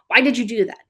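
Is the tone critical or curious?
critical. It is said in a harsh, critical tone. The person is being blamed for the action. The speaker calls it wrong. "That inner critic"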